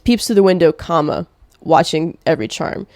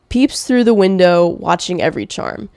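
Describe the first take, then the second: First: It breaks at window before the rest. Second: It runs on with no break after window. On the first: The speaker calls it right. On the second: The speaker calls it wrong. "I didn't say it right"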